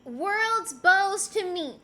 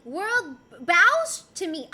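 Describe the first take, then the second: First: "bows" said like "bose"; BOWS rhyming with goes. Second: "bows" said like "bowz" with an ow sound; BOWS rhyming with cows. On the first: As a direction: say "bows" with a long o, as in ribbon bows. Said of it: "I mispronounce everyone's name". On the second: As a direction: stress "bows", as in bowing down, loudly. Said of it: "As in bow". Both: Shown as a demonstration.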